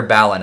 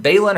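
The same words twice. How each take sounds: First: Balin with a short A, like "BAL-in"; short A pronunciation. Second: Balin with a long A, like "BAY-lin"; long A pronunciation. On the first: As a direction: say the first syllable of Balin as in "balance". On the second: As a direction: say the first syllable of Balin as "bay". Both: Shown as a demonstration. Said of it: "is it Balin or Balin? I forget".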